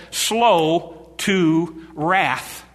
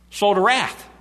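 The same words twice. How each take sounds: First: Unhurried, hushed delivery; very slow. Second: Said in the usual way. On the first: Shown as a demonstration. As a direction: stretch every word calmly.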